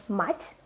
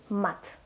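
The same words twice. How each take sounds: First: "мать" with a soft, palatalized т; soft final consonant. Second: "мат" with a hard, unsoftened т; hard final consonant. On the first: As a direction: soften the last consonant of "мать". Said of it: "with a soft sign in the end". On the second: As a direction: keep the t in "мат" plain and hard. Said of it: "If we don't have a soft sign". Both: Shown as a demonstration.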